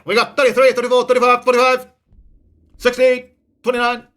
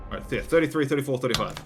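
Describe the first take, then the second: First: Loud, high, rapid auction chant; auctioneer. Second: Said in the usual way. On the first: Pretend. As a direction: rattle off bids like an auctioneer. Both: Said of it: "I feel like an auctioneer".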